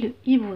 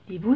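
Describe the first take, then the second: First: The vowel of le is kept before hibou. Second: The vowel of le is dropped before hibou. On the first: The speaker calls it right. "je dis le hibou" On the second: The speaker calls it wrong. "l'hibou c'est fou"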